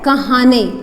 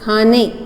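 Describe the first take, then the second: First: It starts with k, a vowel, then h. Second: It starts with a single aspirated kh sound. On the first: The speaker calls it wrong. "इससे आवाज़ भारी नहीं होती" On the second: The speaker calls it right. "आवाज़ भारी हो जाती है"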